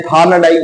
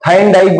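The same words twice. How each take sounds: First: थार्नडाइक said with "thaarn" as the first syllable; variant pronunciation. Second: थाइनडाइक said with "thain" as the first syllable; variant pronunciation. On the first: Teacher showing the other way of saying the name, थार्नडाइक with "thaarn". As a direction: say थार्नडाइक with a long "aa" and an r. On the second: Teacher showing one accepted way of saying the name, थाइनडाइक with "thain". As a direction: say थाइनडाइक with an "ai" vowel up front. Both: Shown as a demonstration. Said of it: "अलग-अलग pronunciation है".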